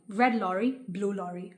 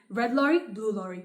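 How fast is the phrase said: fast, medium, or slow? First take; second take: slow; fast. First: The phrase is said at a slow pace. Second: The phrase is said at a fast pace.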